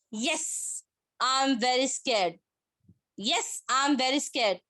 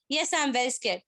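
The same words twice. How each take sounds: First: Slow, halting mild show of fear; understated scared demo, pause after YES; acted scared. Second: Said in the usual way. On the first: Shown as a demonstration. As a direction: draw it out as if a little scared. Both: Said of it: "So both the tone is different".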